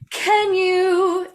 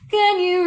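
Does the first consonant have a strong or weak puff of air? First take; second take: strong; weak. First: The first consonant has a strong burst of air. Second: The first consonant has almost no burst of air. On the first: "is a lot of air that goes" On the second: "I don't have this big explosion of air"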